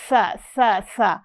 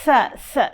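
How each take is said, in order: First: سا with a clear breathy hiss before the vowel; sa with breath. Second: سا said with an audible rush of breath on the س; breathy sa. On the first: Teacher models the breathy sa for the young student. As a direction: make the breath audible on سا. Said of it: "اس میں سانس کی آواز لائیں". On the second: Teacher shows her student the breathy سا. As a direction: push air through the teeth on سا so the breath is heard. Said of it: "یہ آواز آئے". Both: Shown as a demonstration.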